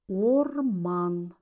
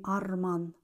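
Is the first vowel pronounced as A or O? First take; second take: O; A. First: The first vowel is a full O sound. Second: The first vowel is reduced to an A sound. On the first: The speaker calls it right. "звук О в безударных слогах всегда произносится как О" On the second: The speaker calls it wrong. "а не"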